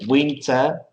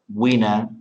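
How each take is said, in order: First: The T after the N is clearly pronounced. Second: The T after the N is dropped.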